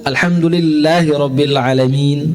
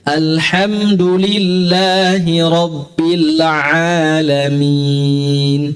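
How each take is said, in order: First: The long vowels are cut to one beat. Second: The long vowels are held for two beats. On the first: The speaker calls it wrong. "Jangan dibaca satu" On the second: The speaker calls it right. "A dua harokat"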